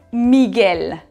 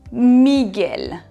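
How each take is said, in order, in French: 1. Le g passe directement au son e. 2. Le g passe directement au son e.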